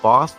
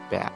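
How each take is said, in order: First: It is said in a non-American accent. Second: It is said in an American accent.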